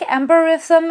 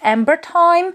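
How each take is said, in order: First: The name ends with a sound like 'rhythm'. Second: The name ends with a sound like 'time'. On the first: The speaker calls it right. "I feel like Amber Rhythm is the correct pronunciation" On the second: The speaker calls it wrong. "some people pronounce this perfume differently as Amber Time"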